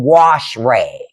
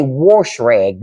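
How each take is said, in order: First: Said in the usual way. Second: "wash rag" as worsh rag; "wash rag" said the Southern way, worsh. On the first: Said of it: "than it is to just say wash". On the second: Shown as a demonstration. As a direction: put an R in "wash". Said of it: "it's more difficult to say wash rag".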